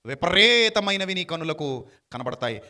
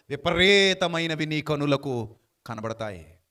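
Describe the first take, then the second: First: Louder, slow, stressing విపరీతమైనవి; slow emphatic restatement; emphatic repeat. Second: Drawn out, deliberate reading; slow measured verse reading; slow scripture reading. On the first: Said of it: "ఎలా కనబడతాయట?". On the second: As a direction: read it slowly, letting each word land. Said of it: "ముప్పై మూడులో అంటాడు". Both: Shown as a demonstration.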